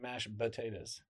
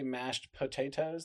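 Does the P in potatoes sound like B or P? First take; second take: B; P. First: Potatoes begins with a soft B-like sound. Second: Potatoes begins with a hard P sound. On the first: "They say mashed potatoes" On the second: "do people not say mashed potatoes?"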